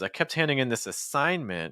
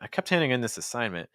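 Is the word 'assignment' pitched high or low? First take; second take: high; low. First: The word assignment is high and heavily stressed. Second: The word assignment is lower and lightly stressed. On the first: The speaker calls it wrong. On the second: The speaker calls it right.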